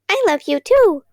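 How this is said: It is said in a tiny, squeaky voice.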